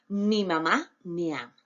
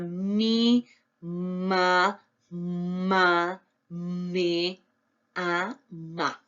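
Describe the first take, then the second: First: The words flow together smoothly with natural intonation. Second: Each syllable is said separately with pauses between. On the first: The reader reads fluently. The speaker calls it right. "esos tonos, esas inflexiones" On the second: The reader is still decoding syllable by syllable. The speaker calls it wrong. "No es la lectura este, cancaneada que decíamos"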